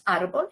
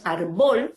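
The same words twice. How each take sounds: First: "árbol" as ÁR-bol, stress on ÁR; first-syllable stress. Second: "árbol" as ar-BOL, slow with stress on BOL; wrong last-syllable stress. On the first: Teacher giving the correct word, "árbol" stressed on ÁR. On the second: Teacher showing what it is not, "árbol" stressed on BOL. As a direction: say "árbol" wrongly, dragging and punching the final syllable. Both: Shown as a demonstration. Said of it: "entonces necesitamos poner el".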